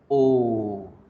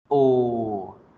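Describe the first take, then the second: No difference in how they are said.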